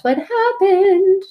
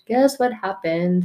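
First: "happened" stretched out high; teasing sing-song. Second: Said in the usual way. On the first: Real, not acted. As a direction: dangle the payoff, slow and rising. Teasing the story's payoff.

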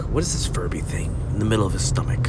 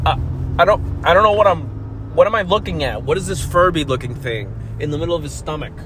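First: Fast hushed whisper; medical whisper. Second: Lightly voiced confused x-ray tech, fast then trailing; a hint of a puzzled technician squinting at a scan; baffled x-ray tech. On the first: Pretend. Medical staff murmuring to each other, a quick whisper. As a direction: whisper it like a doctor conferring over a scan. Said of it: "that's how medical people talk". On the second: X-ray tech puzzling over a scan, mildly mock baffled. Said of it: "the people from the x-rays to go like".

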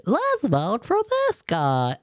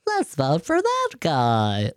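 First: Higher, slow, dopey voter voice; mocking a clueless voter at the polls, higher and slow. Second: Slow, dopey voter voice; mocking a clueless voter at the polls, dim and slow. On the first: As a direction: lift it up like an excited fool. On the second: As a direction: mimic a gullible voter slowly. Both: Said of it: "some people are around the voting office going".

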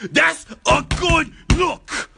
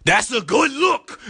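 First: Shrieking, very high and slow; screaming. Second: Much higher, slow and drawn out; high excited voice. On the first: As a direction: scream it out to startle the listener. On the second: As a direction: stretch it out, rising with delight. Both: Pretend. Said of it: "Hopefully I scared you right now".

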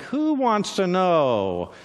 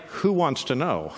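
First: Slow, wary Who wants to know?; a hunted man asking warily, slow and suspicious; suspicious challenge. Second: Said in the usual way. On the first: Acted. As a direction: drag out Who wants to know? like sizing up a spy. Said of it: "and it's like". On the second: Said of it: "who, like, who wants to know?".

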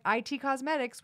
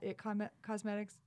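First: "I T" said as two separate letters; I T spelled out. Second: "it" said as one short word. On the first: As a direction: say "I T" letter by letter, eye-tee. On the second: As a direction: say "it" like the pronoun, not letters. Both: Shown as a demonstration. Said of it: "It's either I T or it".

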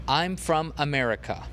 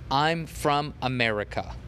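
No difference in how they are said.

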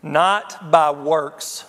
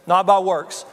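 First: "Not by works" slow, with by leaned on; stress on by. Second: "Not by works" repeated louder, by hit hard; louder restatement, stressing by. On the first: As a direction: draw out "Not by works", pressing on by. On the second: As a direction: punch the word by in "Not by works". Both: Shown as a demonstration. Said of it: "And here's what got me".

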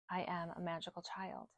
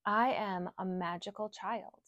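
First: The affirmation repeated much softer; softer echo. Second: Said in the usual way. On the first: Shown as a demonstration. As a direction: echo it back quietly, like a repetition. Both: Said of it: "I want you to repeat these affirmations".

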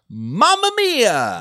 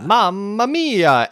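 First: Drawn out, high exclaimed [name]; exclaimed title. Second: Exclaimed title. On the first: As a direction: sing out "[name]" with a big fall. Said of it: "You have to scream it". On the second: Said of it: "Exclamation mark". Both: Shown as a demonstration.

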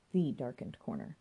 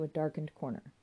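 First: "The" said in its full form, set apart; stress on The. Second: Said in the usual way. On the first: A narrator's reading. Narrator singles out one corner, with emphasis on "The". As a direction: lean on "The" to single it out.

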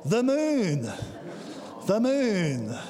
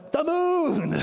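First: "The moon, the moon" said by a sensible grown-up, less high; the same words with the wonder taken out; preacher mocking how an adult would say it; adult talk version. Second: Put-on high, childlike "moon" full of wonder; preacher doing his toddler's amazed call. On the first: Shown as a demonstration. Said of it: "adult talk". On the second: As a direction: gasp it out like a small child seeing it first. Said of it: "When was the last time you went".

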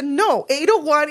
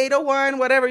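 First: "eight oh one" spelled out slowly, each part weighted; patient, slow correction of a number; slow emphatic repeat. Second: Said in the usual way. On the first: Retold or imitated. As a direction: say "eight oh one" slowly, as if to someone not getting it. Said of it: "Y se lo dice en inglés". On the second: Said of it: "Y él le dice".

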